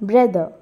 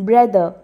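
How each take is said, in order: Both takes have the same delivery.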